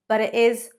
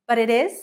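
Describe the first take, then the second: Both takes have the same delivery.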